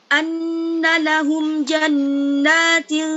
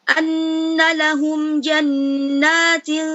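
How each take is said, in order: Both takes have the same delivery.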